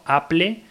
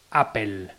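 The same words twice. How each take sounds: First: "Apple" read in Spanish, "a-ple". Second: "Apple" said "apel", the English way. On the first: Podcaster giving the Spanish reading, "Apple" as "aple". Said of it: "en castellano leyéndolo". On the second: Podcaster giving the English form, "Apple" as "apel". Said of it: "como se pronuncia". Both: Shown as a demonstration.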